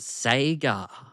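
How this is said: It is said with an American accent. "you guys calling it Sega"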